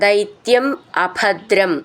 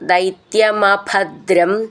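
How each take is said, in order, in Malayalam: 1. രണ്ട് വാക്കുകളും വേർതിരിച്ചാണ് ചൊല്ലുന്നത്. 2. രണ്ട് വാക്കുകളും ചേർത്ത് ഒന്നായി ചൊല്ലുന്നു.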